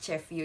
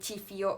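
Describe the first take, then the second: First: The prefix has an 'eh' vowel, unlike the name. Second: The prefix has an 'ee' vowel, like the name. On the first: The speaker calls it right. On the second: The speaker calls it wrong. "itu kayak aneh gitu loh"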